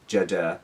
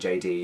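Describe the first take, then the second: First: It is read as one made-up word. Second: It is said as two separate letter names. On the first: "you'd be like Jada" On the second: "you wouldn't say J D"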